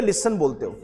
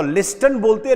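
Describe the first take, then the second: First: लिसन with the t left out; silent t, right. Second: लिस्टन with the t said clearly; t sounded, wrong. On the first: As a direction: say लिसन without any t. (लिसन बिना टी के, सही उच्चारण) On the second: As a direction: say लिस्टन with the t, as the mistake. (लिस्टन में टी बोलकर, गलत तरीका) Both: Shown as a demonstration. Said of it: "टी को silent कर लो".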